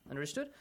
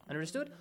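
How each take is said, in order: Both takes have the same delivery.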